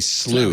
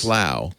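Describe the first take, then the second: First: It is said the American way, rhyming with blue. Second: It is said the British way, rhyming with cow.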